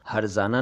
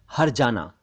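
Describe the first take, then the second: First: हर्जाना said with z, "harzana"; wrong z sound. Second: हर्जाना said with j, "harjana"; correct j sound. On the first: Teacher rejecting mispronunciation: हर्जाना as "harzana". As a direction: say हर्जाना with a buzzing z for j. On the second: Teacher correcting learners: हर्जाना as "harjana". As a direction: say हर्जाना with a hard j. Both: Shown as a demonstration. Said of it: "हर्जाना नहीं".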